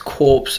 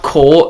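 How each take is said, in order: First: The word ends with an audible 's' sound. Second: The word ends without any 's' sound. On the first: The speaker calls it right. "it's corpse" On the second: The speaker calls it wrong. "not core"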